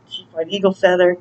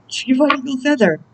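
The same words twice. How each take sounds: First: Said in the usual way. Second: Name said again in a raised, high-pitched voice; high-voiced second go at a name; playful high repeat.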